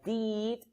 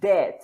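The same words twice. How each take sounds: First: The vowel sounds like ee. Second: The vowel sounds like eh. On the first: "the sound is not as an I, like did not" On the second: "It's not as an E, did, no"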